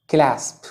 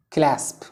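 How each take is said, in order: Both takes have the same delivery.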